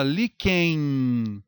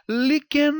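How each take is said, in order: First: "líquen" lento, terminando em êin; ditongo nasal decrescente. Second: "líquen" com N de consoante, li-que-nâ; pronúncia errada. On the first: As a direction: estique o final de "líquen" e deixe cair num i nasal. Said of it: "O som decresce". ("líquen" com N soando como iode) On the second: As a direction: solte o N final de "líquen", com o tom agudo. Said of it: "ou você fala líquen?". ("líquen" com "nâ" extra no fim) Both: Shown as a demonstration.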